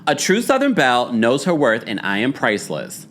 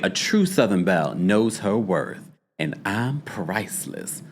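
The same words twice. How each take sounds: First: Said in the usual way. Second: A lightly voiced Southern belle, softer and fading; Phaedra's voice. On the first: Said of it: "when you read it regular, degular". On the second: Shown as a demonstration. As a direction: purr it like a slightly proud Southern belle. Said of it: "when you read it in Phaedra's voice".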